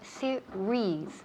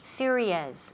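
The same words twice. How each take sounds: First: The ending has a single vowel sound. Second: The ending has two separate vowel sounds. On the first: The speaker calls it right. "se oye series, rees, solamente un vocal" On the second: The speaker calls it wrong. "muchas veces oigo series"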